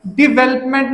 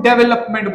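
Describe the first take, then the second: First: डिवेलपमेंट as "di-VEL-up-ment"; correct development pronunciation. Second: डेवलपमेंट as "DEV-el-up-ment"; wrong development pronunciation. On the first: Teacher citing the right form, डिवेलपमेंट as "di-VEL-up-ment". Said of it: "डिवेलपमेंट नूं डेवलपमेंट बोल दिंदे". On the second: Teacher showing the common mistake, डेवलपमेंट as "DEV-el-up-ment". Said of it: "नूं डेवलपमेंट बोल दिंदे". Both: Shown as a demonstration.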